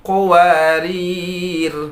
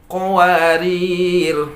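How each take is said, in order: The two takes are said the same way.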